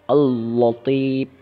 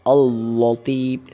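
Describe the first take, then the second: First: The l sound is pronounced heavy and thick. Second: The same.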